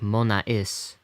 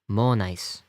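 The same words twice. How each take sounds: First: The final vowels are said as two syllables. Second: The final vowels glide together as one syllable. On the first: The speaker calls it wrong. "So this is not like monais" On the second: The speaker calls it right. "this is becomes part of a diphthong on the end of the vowel"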